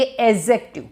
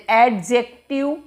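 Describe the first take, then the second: First: एडजेक्टिव said "e-jective", no d sound; correct pronunciation, silent d. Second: एडजेक्टिव said with a clear d sound, "ed-jective"; wrong pronunciation, with d. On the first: Teacher models the correct एडजेक्टिव for students, no d. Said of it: "आप बोलेंगे एडजेक्टिव". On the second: Teacher demonstrates the wrong way to say एडजेक्टिव, with d. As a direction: sound the d in एडजेक्टिव as the common mistake. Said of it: "ये डी का pronunciation इसमें नहीं होता". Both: Shown as a demonstration.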